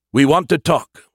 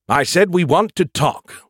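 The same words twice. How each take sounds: First: Firm announcement. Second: Slow, higher, pressing repeat; insistent repeat. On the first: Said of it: "he announced". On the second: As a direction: say it again, more insistently. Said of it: "He tried again". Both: A narrator's reading.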